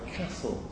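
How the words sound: The word is said in a northern English accent. "people talk about the castle"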